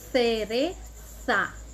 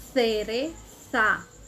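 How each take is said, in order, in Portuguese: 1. Os sons c e z soam como th. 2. Os sons c e z soam como th.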